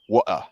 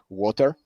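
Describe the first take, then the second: First: It is said in a London accent. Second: It is said in a plain, non-London accent.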